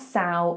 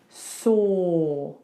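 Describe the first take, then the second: First: The vowel sounds like the 'ow' in cow. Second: The vowel is a rounded 'or' sound. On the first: The speaker calls it wrong. "it looks like it should be sow, but it's not sow" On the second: The speaker calls it right. "it's saw"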